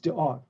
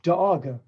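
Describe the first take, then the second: First: The consonants are clipped with no extra vowel. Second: The consonants carry an extra uh sound. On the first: The speaker calls it right. "No, it's dog" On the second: The speaker calls it wrong. "if it says duh and g for G"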